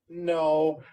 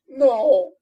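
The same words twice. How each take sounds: First: It is said flatly, with little feeling. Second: It is said tearfully, with sniffing sadness.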